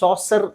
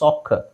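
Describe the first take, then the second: First: The middle consonant is an s sound. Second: The middle consonant is a k sound. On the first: The speaker calls it wrong. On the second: The speaker calls it right.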